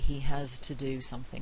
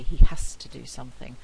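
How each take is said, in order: First: The end of 'has' is a voiced z. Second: The end of 'has' is a voiceless s. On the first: "we don't usually say" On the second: "with a voiceless fricative"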